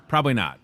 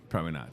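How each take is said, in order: First: Said in the usual way. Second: Softer, lower repeat; quiet lower echo. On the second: Shown as a demonstration. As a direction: say it again under your breath. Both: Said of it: "repeats it quieter".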